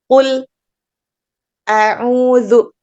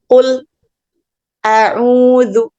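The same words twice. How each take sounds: The two takes are said the same way.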